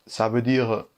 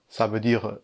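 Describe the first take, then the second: No difference in how they are said.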